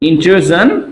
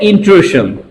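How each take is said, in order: First: The middle consonant is a voiced 'zh' sound. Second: The middle consonant is a voiceless 'sh' sound. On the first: This is the proper pronunciation. The speaker calls it right. "ইন্ট্রুজন হয় উচ্চারণ" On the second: This is how Bengali speakers commonly say it. The speaker calls it wrong. "ইন্ট্রুশন এটা বাঙালিরা বলে"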